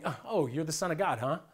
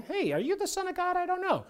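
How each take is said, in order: First: A hint of a mocking challenge; sneering devil. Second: Much higher, puzzled, unsure asking; genuinely wondering devil. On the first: Devil taunting Jesus in the desert, lightly sneering. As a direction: say it like you doubt him to his face. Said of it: "He was saying". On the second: Retold or imitated. Devil honestly wondering if Jesus is God's Son, high and puzzled. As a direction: ask it as if truly not knowing. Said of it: "not like the devil was wondering".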